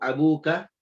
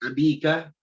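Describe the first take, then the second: First: The vowel after the b is u. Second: The vowel after the b is i. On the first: "Jangan dibaca ... nggak boleh" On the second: "Jangan dibaca ... nggak boleh"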